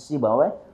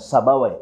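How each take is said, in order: First: The first vowel sounds like 'i'. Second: The first vowel sounds like 'a'. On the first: The speaker calls it right. "tapi Sibawai" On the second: The speaker calls it wrong. "bukan Sabawai"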